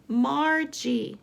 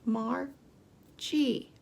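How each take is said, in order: First: Said in the usual way. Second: Margie split into two separate beats; slow, separated Margie for counting; syllable by syllable. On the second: Shown as a demonstration. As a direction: pause between the syllables of Margie. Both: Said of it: "Let's count the syllables".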